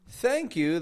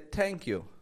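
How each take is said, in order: First: The first sound is a soft th. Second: The first sound is close to t. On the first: The speaker calls it right. "instead of saying thank you" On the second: The speaker calls it wrong. "it makes a sound close to a T"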